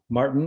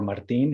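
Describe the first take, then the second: First: The name is pronounced the English way. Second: The name is pronounced the Spanish way.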